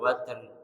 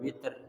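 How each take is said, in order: First: The first vowel is an 'a' sound. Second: The first vowel is an 'i' sound. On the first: "bi fathil" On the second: "wa qasriha"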